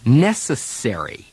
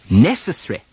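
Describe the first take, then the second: First: Necessary with full American -sary, stress on the R syllable. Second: Necessary as NE-ce-ssry, vowel of -sary dropped; British pronunciation. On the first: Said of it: "Americans stress the syllable containing the R". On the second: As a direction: say Necessary the British way, stress on the first syllable. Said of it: "an earlier syllable now gets the stress". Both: Shown as a demonstration.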